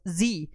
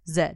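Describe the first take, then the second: First: Z said as zee, American style; Z pronounced zee like on American telly. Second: Z said as zed, the proper British way; Z pronounced zed, the Queen's English. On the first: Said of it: "Z and not the proper and obviously correct". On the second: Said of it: "the proper and obviously correct". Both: Shown as a demonstration.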